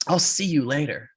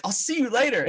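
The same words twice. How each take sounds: First: Curt, final goodbye; firm parting shot. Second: Very high, amused replay; mock parting shot. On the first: Retold or imitated. Racer dismisses his rival on the ice, firm. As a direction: deliver it as the last word. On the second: Storyteller mocks his own useless goodbye, high and amused. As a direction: squeak out the goodbye in self-mockery.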